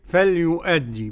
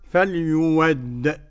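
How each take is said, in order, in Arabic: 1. تبقى الهمزة في الوسط. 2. تُبدل الهمزة واوًا. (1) "بالهمزة كده" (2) "فيبدلوا الهمزة واوا"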